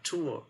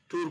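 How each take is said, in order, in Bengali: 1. স্বরধ্বনিটি ইংরেজি ডিফথংয়ের মতো গড়িয়ে যায়। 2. স্বরধ্বনিটি বাংলা ঢংয়ে উচ্চারিত হচ্ছে।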